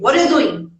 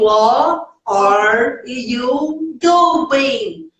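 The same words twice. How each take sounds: First: It is said quickly, with sounds swallowed. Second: It is said slowly, with every word clear. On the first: "bem rapidinho mesmo, comendo letrinha" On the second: "bonitinho, pausadinho"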